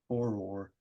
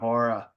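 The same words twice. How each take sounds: First: It is said without a Boston accent. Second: It is said in a Boston accent. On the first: "But I say horror" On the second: "if I'm like talking in an obnoxious Boston accent"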